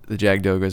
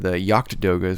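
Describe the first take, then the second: First: The first part sounds like 'jag'. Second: The first part sounds like 'yacht'. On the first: The speaker calls it wrong. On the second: The speaker calls it right.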